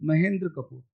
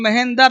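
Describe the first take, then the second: First: "महेंद्र" as ma-hen-dra, tight dr cluster; low, softer "महेंद्र Kapoor" with dr run together; correct reading. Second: "महेंद्र" as ma-hen-dar, full vowel before the r; wrong reading. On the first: Teacher correcting the name's sound, "[name]" as ma-hen-dra. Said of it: "sound Hindi भी change करा". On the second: Teacher showing a misreading to students, "[name]" as ma-hen-dar. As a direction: split the end of "महेंद्र" into a clear "dar". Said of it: "अब इसको पढ़ोगे [name] तो". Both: Shown as a demonstration.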